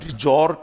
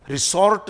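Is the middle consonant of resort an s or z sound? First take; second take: z sound; s sound. First: The middle consonant is a buzzing z sound. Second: The middle consonant is a hissing s sound. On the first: The speaker calls it right. "इसका उच्चारण रिजॉर्ट है" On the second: The speaker calls it wrong. "रिसॉर्ट नहीं बोले"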